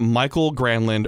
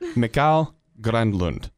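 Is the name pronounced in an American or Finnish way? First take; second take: American; Finnish. First: The name is said with an American pronunciation. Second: The name is said with a Finnish pronunciation. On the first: The speaker calls it wrong. "it's not Michael Granlund" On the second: The speaker calls it right. "you get Mikhail the role"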